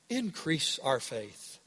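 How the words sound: It is said in a calm, reverent, pious tone. A sincere prayer asking for more faith. The speaker calls it wrong.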